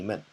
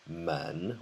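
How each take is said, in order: First: The syllable is light, quick and toneless. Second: The syllable has a full rising tone. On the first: "you almost don't say it. It's just very fast" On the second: "which is normally in the second tone"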